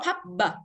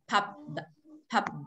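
First: The final b is released loudly with an extra vowel. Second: The final b is small and barely released. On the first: The speaker calls it wrong. "cũng không đọc pub b to như thế" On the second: The speaker calls it right. "mà chỉ là nhỏ này"

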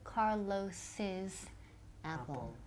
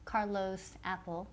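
First: The name has an extra possessive syllable. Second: The name has no extra possessive syllable. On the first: The speaker calls it right. "la pronunciación es que con extra sílaba" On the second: The speaker calls it wrong. "We don't say Carlos apple"

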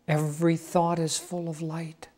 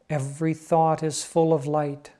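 First: It is said at a softer volume. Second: It is said at a louder volume.

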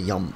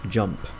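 First: The word begins with a Y sound. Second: The word begins with a J sound. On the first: The speaker calls it wrong. "I don't say yump" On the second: The speaker calls it right. "for me it's J. Because it's a J"

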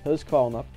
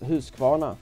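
First: It is said with a Skåne dialect pronunciation. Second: It is said with a standard Swedish pronunciation.

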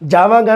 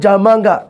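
First: The middle consonant is a v sound. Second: The middle consonant is an m sound. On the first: It is the standard form. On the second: It is the regional dialect form.

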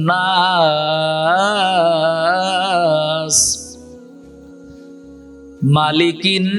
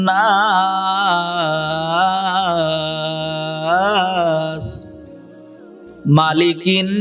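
The two takes are said the same way.

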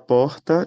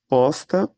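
First: The R sounds like a normal R. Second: The R sounds like an S. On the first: This is the usual way elsewhere. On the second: This is how people from this region say it.

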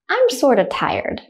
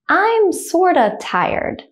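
First: The sentence is said at normal speed. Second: The sentence is said slowly. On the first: "the second time I'll say it at a normal speed, like a native speaker" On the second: "The first time I'll say it slowly"

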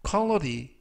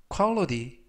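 No difference in how they are said.

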